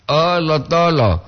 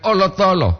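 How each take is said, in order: First: "Oh, lo tolo" slow and stretched, falling at the end; drawn-out intonation. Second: "oh, lo tolo" run together high, falling at the end; quicker high intonation. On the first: Host contrasting two intonations of a phrase, the drawn-out one. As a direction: draw out each part of "Oh, lo tolo". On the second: Host contrasting two intonations of a phrase, the high undrawn one. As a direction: say "oh, lo tolo" higher, without drawing it out. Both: Shown as a demonstration. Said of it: "Beda dengan oh, lo tolo".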